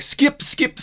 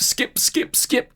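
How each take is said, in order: First: "skip, skip" yelped much higher, hammed up; "skip, skip" flung out high like mashing a remote; impatient skipping. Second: "skip, skip, skip" breathed out unvoiced and softer; "skip, skip, skip" whispered, bored and fed up; muttered skipping. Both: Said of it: "you're like".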